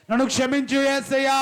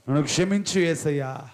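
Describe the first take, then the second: First: High, loud crying-out for mercy; shouted plea. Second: Said in the usual way. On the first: Acted. Preacher at the climax of the prayer, shouting for forgiveness. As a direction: shout it as the last desperate plea.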